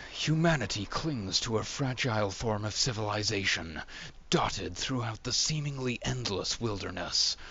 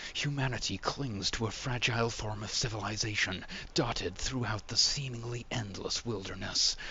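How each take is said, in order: Both takes have the same delivery.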